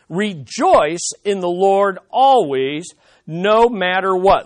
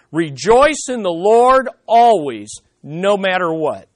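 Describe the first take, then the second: First: Rejoice in the Lord always, slow and weighty, with always rising; slow, stressed repetition. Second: Said in the usual way. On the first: Shown as a demonstration. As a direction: press on "always" and "no matter what". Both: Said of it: "let's look at the stress".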